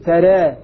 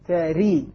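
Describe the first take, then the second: First: The final vowel leans slightly toward e. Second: The final vowel is a full i sound. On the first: "تقليل" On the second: "كسر"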